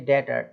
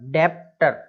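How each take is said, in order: First: The b sound is silent before the t. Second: The b sound is pronounced before the t. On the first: The speaker calls it right. "केवल क्या बोलेंगे, डेटर।" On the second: The speaker calls it wrong. "डेप्टर ऐसा नहीं बोलना"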